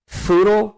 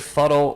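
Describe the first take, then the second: First: The first vowel is a long oo sound. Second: The first vowel is a short uh sound. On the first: "like poodle" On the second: "like huddle"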